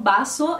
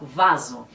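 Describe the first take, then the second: First: The word begins with a B sound. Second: The word begins with a V sound. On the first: "eles falam com o som da letra B" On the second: "no Brasil a gente fala vaso"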